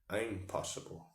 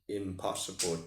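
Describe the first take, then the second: First: A pause separates the M from the P. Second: It is said as one word without a pause. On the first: The speaker declares they are possible. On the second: Something cannot be done.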